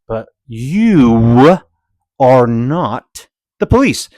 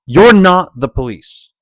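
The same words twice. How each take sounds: First: "are not the police" slowed, every word weighted; stress on police. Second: Said in the usual way. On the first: Shown as a demonstration. Repeating himself slowly so the camera driver gets it. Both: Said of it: "maybe I didn't say it clearly enough".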